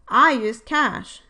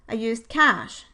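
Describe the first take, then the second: First: The main stress falls on another word. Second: The main stress falls on the word cash. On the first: The speaker calls it wrong. "primary sentence stress placed inappropriately in the second sentence" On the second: The speaker calls it right. "it is the word that is different in each pair of sentences or phrases that is highlighted by primary sentence stress"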